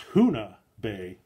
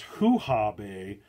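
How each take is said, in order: First: The second syllable begins with an n sound. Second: The second syllable begins with an h sound. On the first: The speaker calls it right. "I think that's how it's pronounced" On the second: The speaker calls it wrong. "that I mispronounced uh, earlier as Hoo-Ha Bay"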